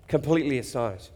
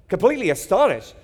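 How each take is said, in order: First: Said in the usual way. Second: Faster, lifted and louder; astonished retelling with energy; excited. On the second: Shown as a demonstration. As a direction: punch it with amazement. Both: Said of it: "I would have picked a different word".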